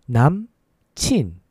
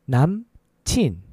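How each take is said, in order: The two takes are said the same way.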